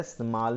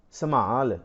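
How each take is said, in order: First: ਸੰਭਾਲ squeezed into one syllable, smaal; wrong reading. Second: ਸੰਭਾਲ with a full vowel in the first syllable, sa-maal; ਸੰਭਾਲ drawn out as sa-maal; correct reading. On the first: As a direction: drop the first vowel of ਸੰਭਾਲ, running s into m. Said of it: "ਸੰਭਾਲ ਨਹੀਂ ਪੜ੍ਹਨਾ". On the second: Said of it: "ਇਹ ਲਫ਼ਜ਼ ਹੈ, ਸੰਭਾਲ ਨਹੀਂ ਪੜ੍ਹਨਾ". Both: Shown as a demonstration.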